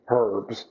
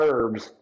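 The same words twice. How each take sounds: First: The word starts with an h sound. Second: The word starts without an h sound. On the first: Several people who share the name Herb. "I have three boys named Herb" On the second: Plants used for cooking or medicine. "not herbs"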